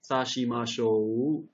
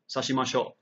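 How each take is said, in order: First: The final O vowel is long. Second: The final O vowel is short. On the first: The speaker calls it right. "We have to get the long" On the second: The speaker calls it wrong. "we don't want to say"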